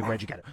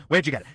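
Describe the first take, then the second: First: Said in the usual way. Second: Where'd shouted much louder; loud demanding. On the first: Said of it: "repeated louder". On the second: Acted. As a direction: repeat it loudly, insisting. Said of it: "repeated quieter first".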